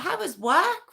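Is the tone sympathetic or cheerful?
cheerful. It is said in a bright, cheerful tone.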